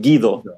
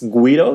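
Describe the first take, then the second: First: It is said with a Latin American pronunciation. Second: It is said with an Italian pronunciation. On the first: "in Latin America they pronounce it Guido" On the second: "it comes from Italy. It's Guido"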